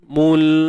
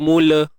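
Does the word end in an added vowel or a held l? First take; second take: held l; added vowel. First: It ends on a held l with no vowel. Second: It ends with an extra vowel after the l. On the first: The speaker calls it right. "mul matikan lam dan jangan beranakkan bunyi dia" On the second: The speaker calls it wrong. "kita tak mau mula"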